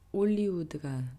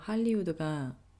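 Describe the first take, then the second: First: The word begins without an h sound. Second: The word begins with an h sound. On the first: "불어 발음으로"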